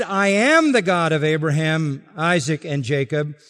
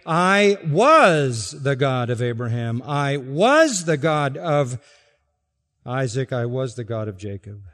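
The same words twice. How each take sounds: First: "am" leaned on firmly; stress on am. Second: "was" drawn out slowly and stressed. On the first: Pastor stressing "am" against "was", firm emphasis. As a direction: hit "am" as the present tense. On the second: Pastor showing the wrong reading, slow stress on "was". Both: Shown as a demonstration. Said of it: "he did not say".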